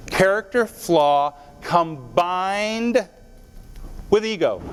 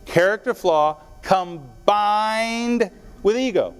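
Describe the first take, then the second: First: Each word laid out slowly; slow emphasis. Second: Stretched out and slower still, each word weighed; very slow repeat. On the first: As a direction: spell the formula out word by word. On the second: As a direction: drive the formula home, very slowly. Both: Shown as a demonstration. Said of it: "Did you get that?".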